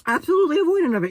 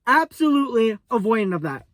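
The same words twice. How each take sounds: First: "Absolutely" hit hard, higher and fast; stress on absolutely. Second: Said in the usual way. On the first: Shown as a demonstration. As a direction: rattle it off again, punching "Absolutely".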